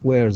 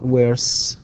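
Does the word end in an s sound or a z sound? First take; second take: z sound; s sound. First: The word ends with a buzzing z sound. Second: The word ends with a hissing s sound. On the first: The speaker calls it right. "تنطق Z" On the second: The speaker calls it wrong. "not S"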